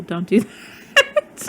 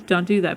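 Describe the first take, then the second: First: Laughing through "Don't do that"; laughing warning. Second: Said in the usual way. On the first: Real, not acted. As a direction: warn while laughing.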